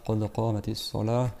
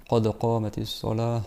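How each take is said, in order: Both takes have the same delivery.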